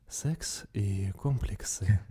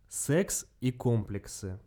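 First: It is said in a put-on, ASMR-like voice. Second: It is said in a normal voice.

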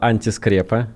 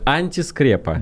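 First: It is said casually within running speech. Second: It is said in a trained, theatrical, articulated voice. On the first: The speaker calls it wrong. "Артикулируйте точнее" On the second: The speaker calls it right. "Поставленным голосом артистическим"

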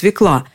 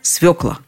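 First: The stress is on the second syllable. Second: The stress is on the first syllable. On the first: The speaker calls it wrong. "Но это неправильно" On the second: The speaker calls it right. "приводят единственно правильный вариант"

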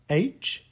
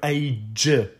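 First: The final consonant is weakly voiced. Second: The final consonant is strongly, fully voiced. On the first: The speaker calls it right. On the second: The speaker calls it wrong.

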